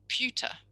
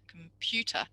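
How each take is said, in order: First: The weak first syllable is left out entirely. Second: All three syllables are said, including the weak first one. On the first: "So they're just saying pewter" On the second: "Can you hear the schwa in that?"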